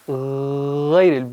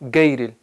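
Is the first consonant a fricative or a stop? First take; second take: fricative; stop. First: The first consonant is a rasping throat fricative. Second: The first consonant is a hard stop. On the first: The speaker calls it right. "बिल्कुल ऊपर से" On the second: The speaker calls it wrong. "ये गलत है"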